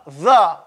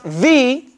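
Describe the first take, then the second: First: The vowel is a short, weak 'uh'. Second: The vowel is a long, full 'ee'. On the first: The next word starts with a consonant. "is pronounced uh, the. When it's pronounced before consonants" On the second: The next word starts with a vowel. "it's pronounced the when it's before a vowel"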